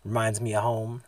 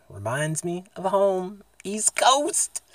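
First: Said in the usual way. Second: Drawn out, climbing higher to the end; playful rising call. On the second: Pretend. Vlogger cheering his East Coast home, high drawn-out call. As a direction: stretch it slowly and let the pitch soar.

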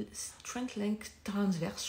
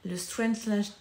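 First: "Strength Length Transverse" spelled out slowly, word by word, French-accented English; careful English terms. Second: Said in the usual way. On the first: Shown as a demonstration. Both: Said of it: "j'utilise mon accent anglais".

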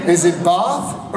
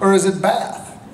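First: "Bath" with a long English "ah"; posh English broad A in "Bath"; British "Bath" vowel. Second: "Bath" with a flat "a" as in cat; "Bath" rhyming with American "math"; short-A "Bath". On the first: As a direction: say "Bath" as "bahth". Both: Shown as a demonstration. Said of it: "the English didn't say Bath until".

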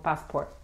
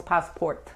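First: "passport" with the last T swallowed; unreleased final T. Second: "passport" with the final T fully sounded; released final T. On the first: Teacher showing how Americans say it, "passport" with an unreleased final T. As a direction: stop "passport" at the T without releasing it. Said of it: "decimos passport". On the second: Teacher showing what Americans don't say, "passport" with a fully pronounced final T. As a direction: finish "passport" on a crisp released T. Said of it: "No decimos passport". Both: Shown as a demonstration.

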